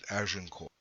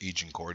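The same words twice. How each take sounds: First: The name is given a French-style pronunciation. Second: The name is given an English-style pronunciation.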